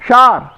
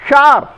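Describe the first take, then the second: Both takes have the same delivery.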